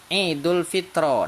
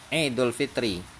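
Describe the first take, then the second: First: The last word ends in an 'a' vowel. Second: The last word ends in an 'i' vowel. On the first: The speaker calls it wrong. "Bapak baca misalnya Idul Fitro. Nah, dia jadi salah itu" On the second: The speaker calls it right. "huruf ro-nya itu harus bacanya e, kasroh"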